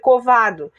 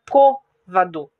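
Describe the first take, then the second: First: The stress is on the second syllable. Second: The stress is on the first syllable. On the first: "dá a impressão de ser covado" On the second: "o acento tá no O, então fica côvado"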